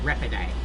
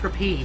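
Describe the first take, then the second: First: Three syllables, ending in a 'day' sound. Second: Two syllables, ending in a 'peet' sound. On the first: "there are people who pronounce it repiday" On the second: "Pronounced repeat"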